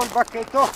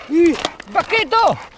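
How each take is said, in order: First: Said in the usual way. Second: High, loud, slow call of il bacchetto; excited shout. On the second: Real, not acted. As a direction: cry out il bacchetto with a stretched bacchetto. Spots the stick, calls dog. (grido eccitato: il bacchetto)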